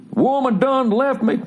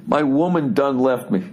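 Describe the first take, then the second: First: Sung, high, slow line on the edge of laughter; mock country singing. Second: Said in the usual way. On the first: Comedian mocking a jilted singer, high laughing croon. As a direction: sing it high, nearly cracking up. Sings lyric, then cracks up.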